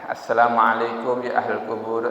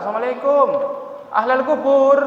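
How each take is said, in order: First: The greeting is said quietly. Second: The greeting is said loudly. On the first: The speaker calls it right. "pelan-pelan aja" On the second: The speaker calls it wrong. "tidak usah"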